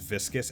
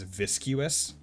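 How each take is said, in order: First: It is said as vis-kus, with no yoo sound. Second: It is said as vis-kyoo-us, with a yoo sound. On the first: The speaker calls it right. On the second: The speaker calls it wrong.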